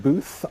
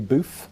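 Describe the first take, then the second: First: The word ends with a 'th' sound. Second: The word ends with an 'f' sound. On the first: "instead of saying booth" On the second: "British people tend to blend F and T H"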